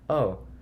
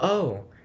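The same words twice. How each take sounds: First: It sounds mildly interested and intrigued. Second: It sounds excited and thrilled.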